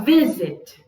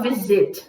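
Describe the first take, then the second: First: Visit strong at the start, zit dropping; stress on vi. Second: Visit with the weight on zit; wrong final stress. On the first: Teacher showing what we do say, visit with stressed vi. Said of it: "O zit abaixa". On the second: Teacher showing what we don't say, visit with stressed zit. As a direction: stress the second syllable of visit. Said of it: "a gente não fala visit". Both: Shown as a demonstration.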